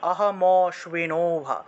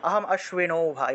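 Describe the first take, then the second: First: The m runs straight into the next word. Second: Aham is split off before a separate a-sound. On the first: "মটাকে পূর্ণ উচ্চারণ করতে হবে" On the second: "এইভাবে উচ্চারণ করেন তাহলে অহম অশ্বি"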